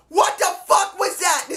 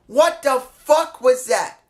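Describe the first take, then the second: First: High, shouted outrage; outraged shout. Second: Slow, stunned disbelief before the outburst; incredulous. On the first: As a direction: let it explode at the top of your voice. Third repeat, breaks into shout. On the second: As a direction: drag it out, still holding back. Repeats his disbelief, slower. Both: Real, not acted.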